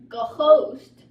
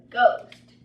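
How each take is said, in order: First: The h sound after the g is pronounced. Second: The h sound after the g is silent. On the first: The speaker calls it wrong. "it's not ghost" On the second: The speaker calls it right. "It is ghost"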